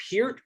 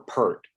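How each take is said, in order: First: "Peart" with a long ee before the r; pronounced PEERT. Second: "Peart" with an er vowel, like the word pert; pronounced PERT. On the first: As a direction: say "Peart" as PEERT, rhyming with "beard" minus the d. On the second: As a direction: say "Peart" as PERT, rhyming with "hurt". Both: Shown as a demonstration. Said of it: "'Cause I hear it both ways".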